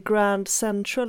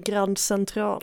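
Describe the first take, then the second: First: It is pronounced the English way. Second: It is pronounced the French way. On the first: The speaker calls it wrong. "inte Grand Central" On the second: The speaker calls it right. "utan det är Grand Central"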